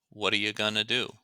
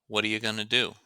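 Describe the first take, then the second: The two takes are said the same way.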